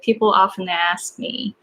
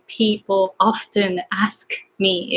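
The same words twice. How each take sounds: First: The k sound drops out and the words flow. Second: Every sound, including the k, is pronounced carefully. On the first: The speaker calls it right. "So you just want to say, ... K kind of disappears" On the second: The speaker calls it wrong. "Instead of going, ... it's too much. It is very tiring"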